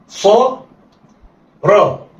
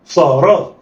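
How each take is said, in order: First: "صا" held, pause, then "را"; letters sounded apart. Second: "صا را" joined in one quick go; snatch "صا را" with no pause; snatched together. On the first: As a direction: say "صا" and "را" as separate syllables. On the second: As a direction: blend "صا را" like one word. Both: Shown as a demonstration. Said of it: "يلا، اخطف".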